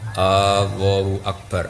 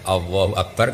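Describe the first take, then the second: First: The opening vowel of Allahu is drawn out. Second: The opening vowel of Allahu is short. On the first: It asks whether God is great. The speaker calls it wrong. "Karena bawa coba panjang. Jadi istifham" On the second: It is a statement that God is great. The speaker calls it right. "kan jelas itu kalam khobar"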